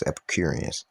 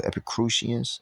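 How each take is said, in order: First: Epicureans said "epi-CURE-ee-ans"; corrected Epicureans. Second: Epicureans misread as "epi-CROO-shee-ans"; mispronounced Epicureans. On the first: Reader settling on a hard name in scripture, Epicureans said "epi-CURE-ee-ans". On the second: Reader trying out a hard name in scripture, Epicureans said "epi-CROO-shee-ans". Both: Real, not acted. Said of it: "I think it's Epicureans".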